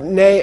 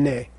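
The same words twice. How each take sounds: First: NE lifted with force; prefixed ne. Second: NE lower and unforced; without prefix letter. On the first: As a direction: push on the NE. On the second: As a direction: let NE drop gently. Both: Shown as a demonstration. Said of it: "you don't wanna mix up".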